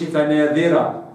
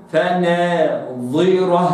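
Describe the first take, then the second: First: فناذرة with a thin ذ instead of ẓā; فناذرة, the wrong, unemphatic way; wrong light dhāl. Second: فناظرة slow, with a heavy emphatic ẓā; correct emphatic ẓā. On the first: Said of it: "قلتش". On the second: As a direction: give the ẓā in فناظرة full weight. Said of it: "وإنما". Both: Shown as a demonstration.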